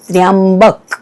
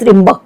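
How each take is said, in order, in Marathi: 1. शब्द हळू आणि सावकाश म्हटला जातो. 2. शब्द पटकन घाईत बाहेर टाकला जातो.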